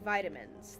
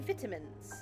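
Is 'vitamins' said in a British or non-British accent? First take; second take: non-British; British. First: It is said with a non-British pronunciation. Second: It is said with a British pronunciation. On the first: "They don't say vitamins" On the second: "I like the way that the Brits say vitamins. They say vitamins"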